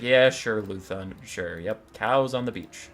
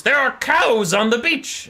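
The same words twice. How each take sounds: First: Low, unimpressed captain's reply; weary humoring. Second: High, loud, slow mad bellow; mad rage. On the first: Long-suffering captain humors his mad boss, weary deadpan. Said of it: "used to all this stupid shit". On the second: Mad pirate lord raging to his captain, hammed-up bellow. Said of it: "in one of his mad fits of rage". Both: Acted.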